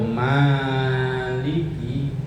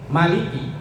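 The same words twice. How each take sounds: First: The first vowel is long. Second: The first vowel is short. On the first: It means owner or master. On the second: It means king.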